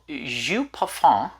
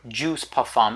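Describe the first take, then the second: First: The name is pronounced the French way. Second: The name is pronounced the English way.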